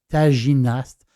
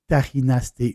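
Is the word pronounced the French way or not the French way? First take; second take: French; not French. First: The word is said with a French pronunciation. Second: The word is said with a non-French pronunciation.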